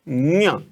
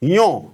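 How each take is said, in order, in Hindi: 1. यह नासिक 'ny' ध्वनि से शुरू होती है। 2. यह सादे 'y' ध्वनि से शुरू होती है। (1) "इसमें हम नोजल, ये नाक लगाते हैं" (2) "बहुत सारे लोग इसको यों बोलते हैं"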